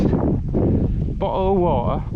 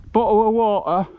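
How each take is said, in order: First: Exaggerated American accent, very slow; mock American accent. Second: "Bottle of water" with the T's swallowed in a British way; lightly played British "Bottle of water", glottal T's; British pronunciation. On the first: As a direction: stretch "Bottle of water" out like an American. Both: Shown as a demonstration. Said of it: "We don't pronounce our T's".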